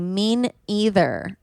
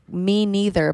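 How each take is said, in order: First: It is said as 'mean' then 'either'. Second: It is said as 'me' then 'neither'. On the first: The speaker calls it wrong. "some people will say mean either" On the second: The speaker calls it right. "It's me neither"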